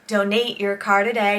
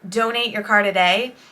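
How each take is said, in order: First: The second syllable of donate is stressed. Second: The second syllable of donate is not stressed. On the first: The speaker calls it wrong. "the commercial actually accents the word Nate" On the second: The speaker calls it right. "you would say"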